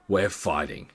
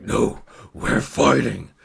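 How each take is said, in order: First: Said in the usual way. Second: Slow, drawn-out beast voice; werewolf challenge. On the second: Retold or imitated. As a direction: insist on the fight like a looming werewolf. Werewolf man repeats it more forcefully.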